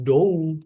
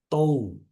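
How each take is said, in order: First: It begins with a voiced d sound. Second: It begins with a voiceless, unaspirated t sound. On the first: The speaker calls it wrong. "Bukan dou" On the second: The speaker calls it right. "tapi tou"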